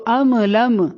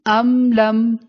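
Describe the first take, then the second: First: ام لم with a little vowel after each m, am-uh lam-uh; bounced meem. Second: ام لم with each m held closed; still meem. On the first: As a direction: bounce both m's of ام لم. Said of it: "یہ غلط ہے پڑھنا". (ام لم کی میم ہلا کر) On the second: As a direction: hum shut on both m's of ام لم, no release. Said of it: "کیسے پڑھیں گے؟". (ام لم کی میم ہلائے بغیر) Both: Shown as a demonstration.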